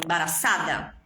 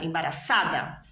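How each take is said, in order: Both takes have the same delivery.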